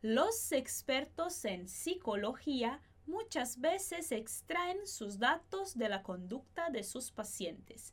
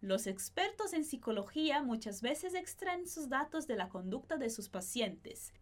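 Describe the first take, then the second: First: The sentence is spoken at a slower pace. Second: The sentence is spoken at a faster pace. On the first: "primeiro mais devagar" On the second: "depois um pouquinho mais rápido"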